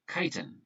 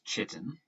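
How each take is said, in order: First: The first syllable sounds like the word kite. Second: The first syllable does not sound like kite. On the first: The speaker calls it right. "It's pronounced chitin, like flying a kite" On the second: The speaker calls it wrong. "A lot of students mispronounce this word here as chitin"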